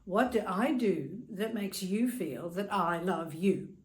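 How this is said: It is asked in an aggressive, attacking tone.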